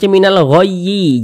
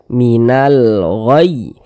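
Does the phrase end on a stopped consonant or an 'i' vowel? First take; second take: vowel; consonant. First: It ends with an added 'i' vowel. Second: It ends on a stopped 'y' with no vowel. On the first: The speaker calls it wrong. "Jangan dibaca minal ghayyi, jangan" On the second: The speaker calls it right. "kalau kita berwakaf di huruf ya, kita baca minal ghayy"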